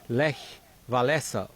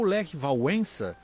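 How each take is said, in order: First: The name is said with Portuguese-style sounds. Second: The name is said with Polish sounds.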